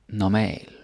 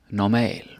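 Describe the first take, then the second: The two takes are said the same way.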